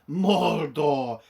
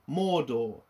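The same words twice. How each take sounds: First: The name is pronounced in an affected, exaggerated way. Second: The name is pronounced in a plain, ordinary way. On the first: This is how the show says it to sound authentic. The speaker calls it wrong. "It wasn't" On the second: This is how the films said it. The speaker calls it right. "It was, you know, normal"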